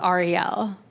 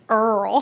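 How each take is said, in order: First: The name is said the Hebrew way. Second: The name is said the Kentucky way.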